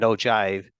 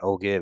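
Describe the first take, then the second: First: The g is said as a j sound. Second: The g is said as a hard g. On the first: The speaker calls it right. "it's actually more of a J sound" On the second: The speaker calls it wrong. "it's not ogive"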